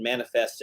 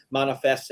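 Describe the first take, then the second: First: Manifest with a flat 'a' as in man; American pronunciation of manifest. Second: Manifest with a rounder first vowel, 'MAH-nifest'; variant pronunciation of manifest. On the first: Host citing podcast ribbing over words, American pronunciation of manifest. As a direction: say manifest as 'MAN-ifest'. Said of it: "you're saying like an American". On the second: Host citing podcast ribbing over words, variant pronunciation of manifest. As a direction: say manifest as 'MAHN-ifest'. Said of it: "more American pronunciation of words". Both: Shown as a demonstration.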